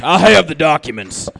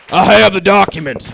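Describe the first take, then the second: First: Conspiracy theorist repeat. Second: Put-on voice, insistent; lightly voiced crank; conspiracy theorist. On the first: Acted. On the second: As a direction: push the claim like a crank. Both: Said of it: "impression of a conspiracy theorist".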